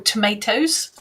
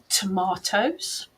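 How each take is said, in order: First: The word is said in an American accent. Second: The word is said in an English accent. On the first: "or American" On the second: "depending whether you're English"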